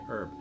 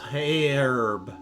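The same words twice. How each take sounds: First: The word starts without an h sound. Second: The word starts with an h sound. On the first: This is how Canadians say it. "the H is typically silent in Canada. So, oh, so you say herb" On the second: This is how British speakers say it. "the British you say H. So it would be herb"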